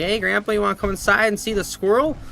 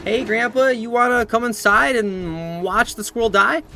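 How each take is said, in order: First: Innocent invitation. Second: High, loud, over-eager mock invite; mock-cheerful invitation. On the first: Retold or imitated. Acting out his innocent invitation. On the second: Inviting grandpa to watch the squirrel die, hammed-up cheer. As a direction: stretch it out with absurd enthusiasm.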